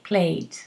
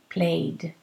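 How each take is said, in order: First: The word ends with a voiceless T sound. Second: The word ends with a voiced D sound. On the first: "you can pronounce a T" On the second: "You need to pronounce a D"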